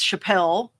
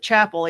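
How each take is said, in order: First: The name sounds like Chappelle. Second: The name sounds like the word chapel. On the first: This is the name as it is spelled. "we think it's Chappelle in the name of the road" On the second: This is how locals in the South say it. "everybody calls it Chapel"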